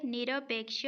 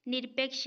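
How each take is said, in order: First: निरपेक्ष as "ni-ra-peksh"; निरपेक्ष with three full beats; correct open form. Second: निरपेक्ष as "nir-peksh"; निरपेक्ष with no vowel after r; wrong closed form. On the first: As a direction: sound an a after the r of निरपेक्ष. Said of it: "होता है". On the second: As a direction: run r straight into p in निरपेक्ष. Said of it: "नहीं होता है". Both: Shown as a demonstration.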